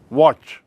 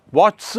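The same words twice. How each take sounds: First: Said in the usual way. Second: वॉट्स with an effortful "ch-s" ending; awkward final cluster. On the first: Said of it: "अब वॉच में एस लगाइए". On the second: Shown as a demonstration. Teacher shows a hard plural, वॉट्स with strained final consonants. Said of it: "बहुत कठिन हो रहा".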